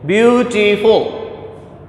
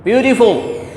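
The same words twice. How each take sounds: First: Beautiful drawn out slowly, each syllable apart; slowly sounded out. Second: Said in the usual way. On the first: Shown as a demonstration. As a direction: stretch out Beautiful so every vowel sound is heard. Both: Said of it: "It has three sounds".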